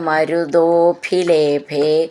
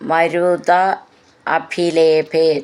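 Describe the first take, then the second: First: The words are run together into one form. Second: The words are said as separate words.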